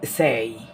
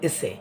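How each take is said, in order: First: The word ends in a gliding 'ay' vowel. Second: The word ends in a plain short 'e' vowel. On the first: The speaker calls it right. "এটার উচ্চারণ হবে সেই" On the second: The speaker calls it wrong. "এসে না"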